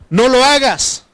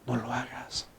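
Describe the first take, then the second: First: It is shouted harshly. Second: It is said in a soft, sweet voice.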